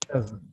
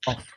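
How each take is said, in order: First: The word ends with a voiced V sound. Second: The word ends with a voiceless F sound. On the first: The speaker calls it right. "V sound එකක් තියෙන" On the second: The speaker calls it wrong. "not of"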